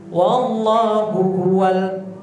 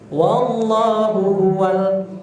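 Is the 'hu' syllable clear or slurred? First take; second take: clear; clear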